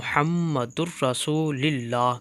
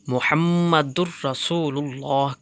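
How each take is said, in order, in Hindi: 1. 'Rasul' के बाद का स्वर 'i' है। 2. 'Rasul' के बाद का स्वर 'u' है।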